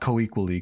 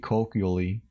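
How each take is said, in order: First: The word is said like co-equally. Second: The word is said like colloquially. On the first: The speaker calls it wrong. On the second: The speaker calls it right.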